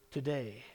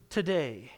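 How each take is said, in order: First: Today repeated much softer and lower; soft echo. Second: Today hit firmly with a falling close; emphatic today. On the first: Preacher to congregation, echoing Today quietly. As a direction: let Today fall away softly. Preacher echoes the word softly. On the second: Preacher to congregation, stressing Today firmly. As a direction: land Today like a promise. Preacher repeats Jesus' word. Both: Acted.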